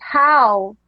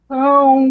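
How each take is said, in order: First: The vowel is oral, not nasal. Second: The vowel is nasal.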